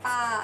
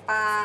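First: The syllable's pitch rises then falls sharply. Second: The syllable is said on a level mid pitch.

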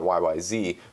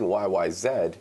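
First: The final letter is said the American way. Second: The final letter is said the Canadian way. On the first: The speaker calls it wrong. "not YYZ" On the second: The speaker calls it right. "I'm saying YYZ, because Rush is a Canadian prog rock band"

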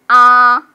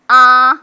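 First: The pitch stays high and level. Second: The same.

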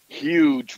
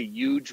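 First: The word starts with an H sound. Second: The word starts with a Y sound. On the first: It is the ordinary pronunciation. "huge with an H" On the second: It mimics a well-known politician's pronunciation. "huge with a Y"

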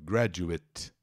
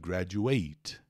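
First: The final syllable sounds like 'it'. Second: The final syllable sounds like 'ate'. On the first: It is a noun or adjective. "it, it, it, quando é substantivo ou adjetivo" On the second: It is a verb. "O verbo é to graduate"

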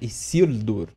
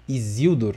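First: The middle consonant is a hissing S sound. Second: The middle consonant is a buzzing Z sound. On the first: The speaker calls it right. "a pronúncia correta é Isildur" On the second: The speaker calls it wrong. "com esse som de Z"

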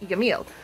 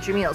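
First: The name begins with a Y sound. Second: The name begins with a J sound. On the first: This is the proper Arabic way of saying it. "the proper pronunciation of Kalim and Yamil" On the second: This is the common way of saying it. "commonly we call them Kalim and Jamil"

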